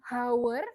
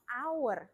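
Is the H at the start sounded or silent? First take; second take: sounded; silent. First: The H at the start is sounded. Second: The H at the start is silent. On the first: The speaker calls it wrong. "Dia bacanya bukan hour" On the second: The speaker calls it right. "tapi hour"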